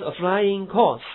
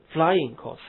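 First: Course stressed, slow, falling; wrong stress on course. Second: Flying stressed, course light, slow. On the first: Teacher showing the wrong reading, stress on course. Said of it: "不是". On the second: Teacher giving the right reading, stress on flying. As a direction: hit flying and let course fall away. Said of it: "呃". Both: Shown as a demonstration.

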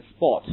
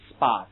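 First: British "sport" with a rounded short o; British English. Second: American "spot" with an open ah vowel; American English. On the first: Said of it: "英国人会读成sport". (英式发音读sport) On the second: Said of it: "美国人会读成什么". (美式发音读spot) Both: Shown as a demonstration.

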